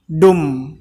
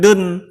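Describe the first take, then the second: First: The syllable ends with an m sound. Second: The syllable ends with an n sound. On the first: The speaker calls it right. "tapi dum karena melebur" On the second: The speaker calls it wrong. "bukan dun"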